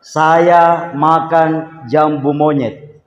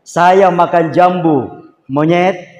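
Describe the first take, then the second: First: "Saya makan jambu monyet" slow and level, falling at the end; slow, flat demonstration of "Saya makan jambu monyet"; flat intonation. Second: "Saya makan jambu", a break, then "monyet" lifted; slow "Saya makan jambu monyet", "monyet" set apart like calling someone a monkey; raised intonation. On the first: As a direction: say "Saya makan jambu monyet" evenly as one plain statement. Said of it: "intonasinya agak datar". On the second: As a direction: set off "monyet" with a pause and a rising tune. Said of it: "intonasinya agak tinggi". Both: Shown as a demonstration.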